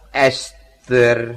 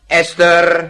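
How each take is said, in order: First: The name is said slowly and softly. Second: The name is said quickly and sharply.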